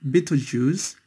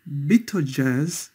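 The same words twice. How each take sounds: First: Betelgeuse ending in a long "zhooz"; alternative pronunciation. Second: Betelgeuse ending in a short "jerz"; first pronunciation. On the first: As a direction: Betelgeuse said as "BEE-toh-zhooz". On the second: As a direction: say Betelgeuse with a hard j and "uhz" ending. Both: Shown as a demonstration. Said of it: "also sometimes pronounced".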